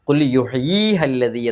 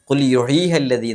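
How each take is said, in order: First: The vowel before 'ha' is held long. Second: The vowel before 'ha' is kept short. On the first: The speaker calls it right. "എന്ന് നീട്ടിയിട്ടാണ് ഓതേണ്ടത്" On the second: The speaker calls it wrong. "എന്നല്ല"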